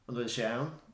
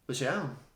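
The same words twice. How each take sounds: First: The opening particle is said in full. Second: The opening particle is left out entirely. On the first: It is the standard complete question. "So the full question" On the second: It sounds even more relaxed. "just say"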